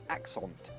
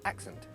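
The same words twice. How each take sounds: First: The second vowel is a full, overpronounced vowel. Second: The second vowel is a weak lazy schwa. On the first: The speaker calls it wrong. "some people might overcompensate and pronounce it accent" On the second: The speaker calls it right. "it has the schwa sound. It should be a lazy sound"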